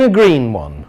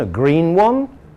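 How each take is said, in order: First: The voice falls at the end. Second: The voice rises at the end. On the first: The list is finished. "that falling voice at the end tells us finished" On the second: The list is not finished; there are more. "making the voice go up at the end"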